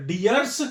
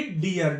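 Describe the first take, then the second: First: डियर्स with an added final s; wrong plural form. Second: डियर ending on r, without s; correct unchanged form. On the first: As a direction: sound the extra s on डियर्स. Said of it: "नहीं होता". (अंत में स जोड़कर डियर्स) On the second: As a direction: say डियर with no plural s. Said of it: "डियर्स नहीं होता". (बिना स के डियर) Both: Shown as a demonstration.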